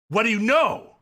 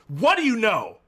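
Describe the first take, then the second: First: It is said forcefully, like an exclamation. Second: It is said forcefully, like an exclamation.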